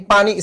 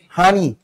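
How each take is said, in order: First: It starts with a p sound, standard. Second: It starts with an h sound, Noakhali dialect.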